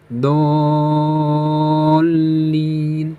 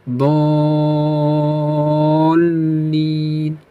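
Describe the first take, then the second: The two takes are said the same way.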